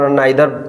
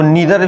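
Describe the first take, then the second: First: The first vowel sounds like 'eye'. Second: The first vowel sounds like 'ee'. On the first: "नाइदर पढ़ सकते हैं" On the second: "इसको नीदर भी पढ़ते हैं"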